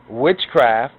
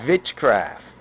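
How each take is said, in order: First: The word begins with an English W sound. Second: The word begins with a German-style V sound.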